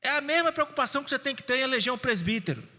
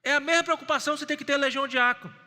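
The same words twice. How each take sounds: First: Mesma leaned on; stress on mesma. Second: Louder, faster repeat, leaning on "mesma"; building emphasis. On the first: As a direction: hit "mesma" with a falling stress. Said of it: "repeated with diácono". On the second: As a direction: push the repeat harder and faster. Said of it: "repeated with presbítero". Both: Acted.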